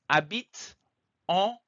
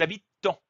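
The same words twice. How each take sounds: First: No linking t joins habitent to en. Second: A linking t joins habitent to en. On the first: The speaker calls it right. "Aucune liaison" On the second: The speaker calls it wrong. "Je ne dis pas ils habitent en. Non"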